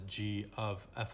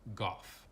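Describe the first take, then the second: First: The letters are said separately with "of". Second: It is said as one short word. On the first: The speaker calls it right. "this is g of f of x" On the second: The speaker calls it wrong. "this is not pronounced as goff"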